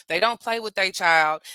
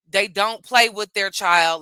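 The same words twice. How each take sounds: First: Said in the usual way. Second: Slower and louder, leaning on play; emphasized repeat. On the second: Shown as a demonstration. Mother driving her point home to viewers, stress on "play". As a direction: press down on "play", drawing the whole line out. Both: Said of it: "Let me emphasize that".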